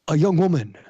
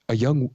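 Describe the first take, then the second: First: It is read in a dramatic slam poetry style. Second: It is read in a plain reading voice.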